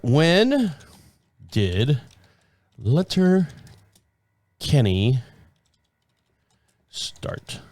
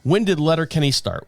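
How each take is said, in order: First: Drawn out word by word, trailing off; slow, distracted repeat. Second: Said in the usual way. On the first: Real, not acted. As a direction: say it slowly while looking it up. Repeats it while looking it up.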